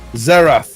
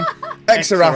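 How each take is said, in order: First: The name begins with a plain z sound. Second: The name begins with an extra ex sound. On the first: The speaker calls it right. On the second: The speaker calls it wrong.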